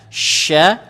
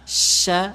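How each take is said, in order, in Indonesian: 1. Bunyi sh dibuat dengan lidah di tengah. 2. Bunyi sh dibuat dengan lidah di depan. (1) "lidah tengah" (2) "lidahnya agak sedikit maju. Itu kurang bagus"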